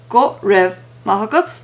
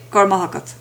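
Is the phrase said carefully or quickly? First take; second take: carefully; quickly. First: The phrase is said carefully, every word distinct. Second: The phrase is said quickly, with words run together.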